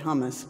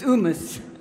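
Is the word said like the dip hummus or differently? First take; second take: like hummus; differently. First: It is said like the dip hummus. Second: It is said differently from the dip hummus. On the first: The speaker calls it wrong. "I said hummus" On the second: The speaker calls it right. "but it's humus"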